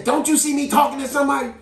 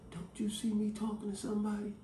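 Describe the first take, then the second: First: High, loud indignant yell. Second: Hushed, pointed whisper. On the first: Teller to a waiting customer, yelling it. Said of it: "she did yell it". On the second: Child repeating grandma's whispered scolding to siblings, hushed. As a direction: imitate grandma's quiet scolding. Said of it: "whispered to you". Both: Retold or imitated.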